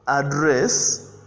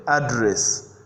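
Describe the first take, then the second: First: "address" with stress on the second syllable; verb pronunciation. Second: "address" with stress on the first syllable; noun pronunciation. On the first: Teacher recaps address as a verb, second-syllable stress on "address". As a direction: lean on the final syllable of "address". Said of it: "address as a verb". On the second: Teacher recaps address as a noun, first-syllable stress on "address". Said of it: "as a noun". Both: Shown as a demonstration.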